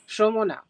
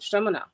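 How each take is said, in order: First: The name is said with Bengali-style vowels. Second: The name is said as plainly read. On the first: The speaker calls it right. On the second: The speaker calls it wrong.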